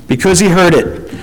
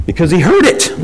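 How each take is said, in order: First: "he" stressed, then a fall; emphasis on "he" with a falling end. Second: "heard" rises as the peak; stress on heard. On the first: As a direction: point at "he". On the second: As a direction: lift "heard". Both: Shown as a demonstration.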